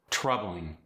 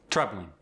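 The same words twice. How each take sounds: First: Said in the usual way. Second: South African "troubling" with a strong T; South African accent. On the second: Shown as a demonstration. Teaching the strong T, South African "troubling". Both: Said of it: "you get a strong T".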